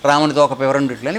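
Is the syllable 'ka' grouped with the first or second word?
first. The break falls right after 'ramuni toka'. Rama seems to have a tail. The speaker calls it wrong. "రాముడికి తోక వచ్చేసింది"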